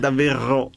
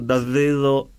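First: The r is made at the back of the throat. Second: The r sounds close to a v. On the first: "che la faccio dietro" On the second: "La R moscia è quella che va tipo più sulla via"

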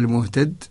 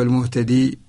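First: The word ends on the consonant 'd'. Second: The word ends in a long 'ee' vowel. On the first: The final ya is omitted in the written text. "يوقف قبل المحذوف" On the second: The final ya is kept in the written text. "هكذا الوقف على الياء الثابتة"

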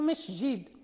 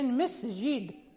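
First: The s sound is mixed with sh. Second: The s sound is a clean s. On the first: The speaker calls it wrong. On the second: The speaker calls it right.

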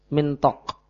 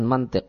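First: The vowels are i then o. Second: The vowels are a then i. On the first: The word means a belt. The speaker calls it right. "Mimnya di kasrah, mintok" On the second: The word means speech. The speaker calls it wrong. "Bukan mantik berarti"

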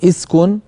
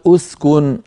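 First: The word begins with an i vowel. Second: The word begins with a u vowel. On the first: "مكسورة" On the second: "مضمومة"

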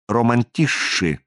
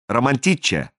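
First: The middle consonant is a soft 'shsh' sound. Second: The middle consonant is a hard 'ch' sound. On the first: The speaker calls it right. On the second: The speaker calls it wrong.

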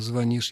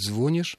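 First: The stress falls on the second syllable. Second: The stress falls on the first syllable. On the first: This is the older, established stress. The speaker calls it right. "вместо «звонишь»" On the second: This is the newer stress many people now use. The speaker calls it wrong. "очень многие начали говорить «звонишь»"

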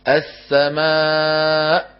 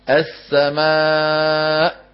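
Both takes have the same delivery.

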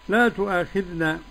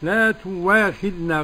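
First: It has a glottal stop after 'tu'. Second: It has a w sound after 'tu'.

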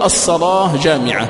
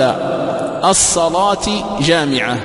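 First: The word endings are said without an i vowel. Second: The word endings are said with an i vowel. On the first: The speaker calls it right. "وهذا أيضا جائز كما تقدم" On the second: The speaker calls it wrong. "بالكسر فهذا لا وجه له"

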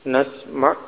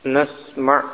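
The two takes are said the same way.

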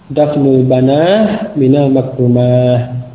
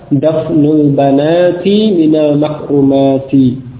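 First: The nouns end with a breathy 'ah' sound. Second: The nouns end with a full 'ati' sound. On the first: This is a less common pausal form. "ada pula yang membacanya dengan ha" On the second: This is the original form without pausing. "asalnya apa?"

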